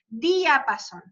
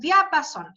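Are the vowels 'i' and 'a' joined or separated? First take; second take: separated; joined. First: The 'i' and 'a' are in separate syllables. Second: The 'i' and 'a' form one syllable. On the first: "Y ahí separamos" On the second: "esto es diapasón"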